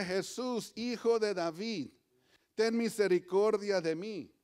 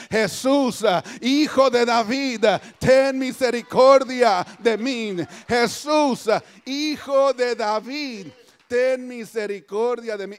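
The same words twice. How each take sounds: First: Said in the usual way. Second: Loud, drawn-out plea; crying out. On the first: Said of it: "cuando Bartimeo dice esto". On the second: Acted. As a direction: cry out slowly for mercy from the pulpit. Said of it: "Y empieza a gritar". (clamor a gritos, suplicante)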